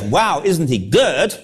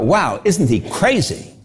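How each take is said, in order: First: Admiring wow. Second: Scoffing wow. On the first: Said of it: "not because". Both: Retold or imitated.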